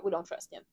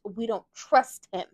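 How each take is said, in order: First: Softer, lower aside of we don't trust him; quiet repeat. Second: Don't drawn out slowly and louder; stress on don't. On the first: Repeating distrust of Cyrus softly to herself. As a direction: mutter it as a final aside. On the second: Declaring distrust of Cyrus, slow and firm. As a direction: lean on don't. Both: Shown as a demonstration.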